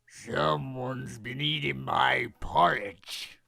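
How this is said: It is growled in a Papa Bear voice.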